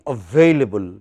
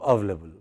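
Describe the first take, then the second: First: All syllables of the word are pronounced. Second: One syllable of the word is dropped. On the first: The speaker calls it right. "It should be available" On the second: The speaker calls it wrong. "because people spoke rapidly, what did it become? ... One part went"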